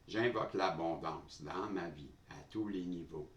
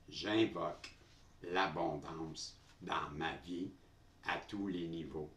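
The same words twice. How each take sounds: First: It is spoken at a quicker, hurried pace. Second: It is spoken at a slower, normal pace.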